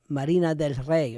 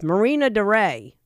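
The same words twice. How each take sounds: First: It is said with a Spanish pronunciation. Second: It is said with an American English pronunciation. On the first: The speaker is a Spanish speaker. "in Spanish" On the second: The speaker is an English-speaking foreigner. "where a gringo goes"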